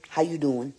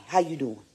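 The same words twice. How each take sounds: The two takes are said the same way.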